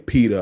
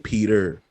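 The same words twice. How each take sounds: First: The word ends in a soft 'ah' sound. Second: The word ends with a clear r sound. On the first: This is how the speaker says it. "I say Peter" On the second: This is not how the speaker says it. "I don't say Peter"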